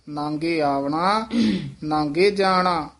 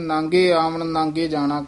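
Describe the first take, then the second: First: The first verb ends with a long 'a' vowel. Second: The first verb ends without a final vowel. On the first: The speaker calls it right. "ਪੰਕਤੀ ਹੈ ਨਾਂਗੇ ਆਵਣਾ, ਇੱਥੇ ਕੰਨਾ ਹੈ" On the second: The speaker calls it wrong. "ਕਈ ਵਾਰ ਪਾਠੀ ਸਿੰਘ ਨਾਂਗੇ ਆਵਣ ਨਾਂਗੇ ਜਾਣਾ ਕਹਿ ਦਿੰਦੇ ਹਨ"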